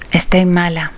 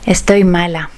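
The two takes are said the same way.

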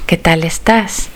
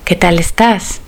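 No difference in how they are said.

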